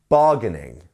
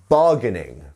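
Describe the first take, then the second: The two takes are said the same way.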